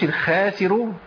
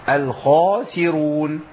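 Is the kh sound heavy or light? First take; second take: light; heavy. First: The kh sound is light and thin. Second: The kh sound is heavy and full. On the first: The speaker calls it wrong. "ما اقولش الخاسرون عشان بعديها تيجي مرققة" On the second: The speaker calls it right. "الخاء وجمع السين"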